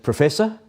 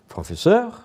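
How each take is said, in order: First: It is said with an English pronunciation. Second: It is said with a French pronunciation.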